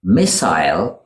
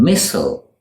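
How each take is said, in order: First: "Missile" as MISS-ile, rising; British "Missile", ending like aisle; British pronunciation. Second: "missile" as MISS-ul, falling; American "missile", like whistle; American pronunciation. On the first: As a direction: give "Missile" a long I ending. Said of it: "in the U K". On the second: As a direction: weaken the last vowel of "missile". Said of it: "in the U S". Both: Shown as a demonstration.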